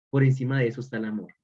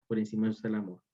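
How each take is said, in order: First: Brisk assertion. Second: The same line again, much softer and lower; soft echo. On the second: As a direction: let it settle quietly. (repetición suave y baja) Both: Shown as a demonstration. Repeated for emphasis.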